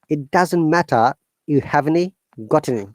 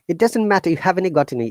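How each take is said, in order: First: The phrase is spoken slowly and carefully. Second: The phrase is spoken quickly and fluently. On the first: "I'm s- saying it slowly so that you can copy it" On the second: "You have to pronounce it quickly, faster"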